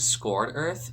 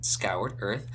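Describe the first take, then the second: First: The first word sounds like 'scored', one syllable. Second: The first word sounds like 'scoured', with 'ow'. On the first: The speaker calls it wrong. "I keep saying scored Earth instead of scoured Earth" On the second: The speaker calls it right. "That's the real pronunciation"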